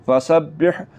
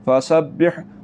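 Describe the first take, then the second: Both takes have the same delivery.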